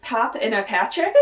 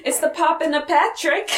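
First: Said in the usual way. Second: Higher-pitched quote of a flustered character; Logan. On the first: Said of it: "it sounds like he's saying". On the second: Retold or imitated. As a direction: do an impression, pitched up, words run together. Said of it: "really good Logan impression there".

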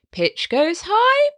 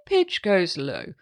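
First: Slow, rising high on high; high pitch. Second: Slow, dropping low and soft on "low"; low pitch. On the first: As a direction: glide up on "high". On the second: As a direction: sink down on "low". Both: Shown as a demonstration.

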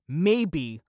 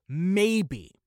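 First: Said in the usual way. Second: "Maybe." stressed alone as a doubtful aside; emphasized maybe. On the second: Shown as a demonstration. Podcaster stressing doubt about Marvel's future, "Maybe." emphasized. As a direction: lean hard on "Maybe." with a falling doubtful tune. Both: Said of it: "the reason why I'm emphasizing on the word maybe".

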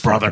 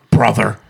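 First: Said in the usual way. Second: Louder Hulk Hogan growl on brother; a touch of Hulk Hogan. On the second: Shown as a demonstration. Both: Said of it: "He has more of a voice like this".

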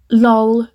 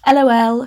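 First: "Lol" said as one word, rhyming with doll. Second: "L O L" spelled out letter by letter. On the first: Reading her old story aloud, she tries "Lol" as one word. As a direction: read "Lol" as a single spoken word. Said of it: "would she say, lol or L O L?". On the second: Re-reading her story's line, she spells out "L O L" letter by letter. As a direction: spell out "L O L" as three separate letters. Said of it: "lol or L O L?". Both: Shown as a demonstration.

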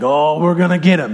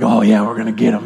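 First: Lightly voiced coach revving up the team; a hint of a rallying football coach; pep-talking coach. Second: Low, fast mock team voice; pumped-up players. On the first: Coach giving the team a pep talk, lightly hammed-up. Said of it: "when I had a coach growing up". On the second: Players answering the coach's pep talk, mock pumped-up and low. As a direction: imitate a hyped player echoing the coach. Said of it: "you all get all pumped".

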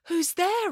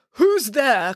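First: High, softer echo; echoing reply. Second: Mild call into the woods. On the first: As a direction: repeat it back high and small. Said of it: "replied Echo". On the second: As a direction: call out to an unseen follower. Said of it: "called Narcissus". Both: A narrator's reading.

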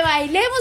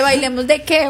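First: Soft, lightly voiced happy invitation; retold happy invitation. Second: Mildly indignant comeback, half laughing; retold annoyed retort. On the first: Happy ex asks angry girlfriend to dance, retold lightly. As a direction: play the oblivious happy boyfriend, lightly. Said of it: "él estaba súper feliz". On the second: Angry girlfriend answers happy ex, retold mild indignation. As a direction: throw the invitation back, mildly annoyed. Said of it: "Y yo llego súper enojada".

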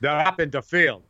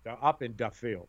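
First: Put-on a mother with a light Polish accent calling out to the neighbourhood kids; mother's Polish accent. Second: Put-on light Polish accent, dropping to a softer close; mother's Polish accent. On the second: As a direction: repeat it in the Polish accent, letting it fall softer. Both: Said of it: "in a bit of a Polish accent".

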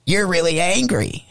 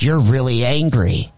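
First: Imitated possessed girl, pitched high; put-on high, eerie mock-demon voice; switched devilish voice. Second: Lightly imitated possessed girl; a hint of mock demon, near usual pitch; switched devilish voice. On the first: Replaying the biting girl's words, weird high devilish imitation. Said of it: "when she was like". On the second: Biting girl to the man who hit her, lightly devilish. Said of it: "when her voice switched over".

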